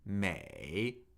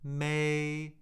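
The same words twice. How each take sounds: First: The pitch dips low, then rises. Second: The pitch stays high and level. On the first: "third tone" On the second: "the first tone"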